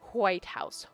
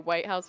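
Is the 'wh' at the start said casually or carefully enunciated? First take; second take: enunciated; casual. First: The opening wh sound is carefully enunciated. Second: The opening wh sound is said casually. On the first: "I don't normally say it like that"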